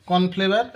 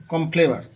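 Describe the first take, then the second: First: "কর্নফ্লেভার" said fully as kon-phlebar, with the aspirated ph and the final r; careful corrected "কর্নফ্লেভার", every sound in place; corrected pronunciation. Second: "কর্নফ্লেভার" clipped to kompleba, no r before the end, ending trailing off; slurred mispronunciation. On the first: ("কর্নফ্লেভার" ঠিক উচ্চারণে, পুরোটা স্পষ্ট করে) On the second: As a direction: say "কর্নফ্লেভার" as a sloppy kompleba, swallowing the n and the final r. ("কর্নফ্লেভার" ভুল উচ্চারণে, কমপ্লেবা) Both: Real, not acted. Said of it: "প্রথমে তো উচ্চারণটা আমার ভুল হয়েছিল".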